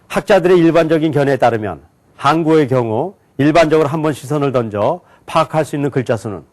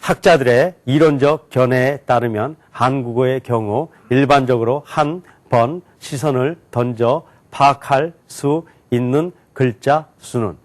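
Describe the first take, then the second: First: It is read very fast, in grouped chunks. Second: It is read at moderate speed, word by word. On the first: "묶어서 굉장히 빨리 읽었어요" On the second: "단어로 읽어볼게요"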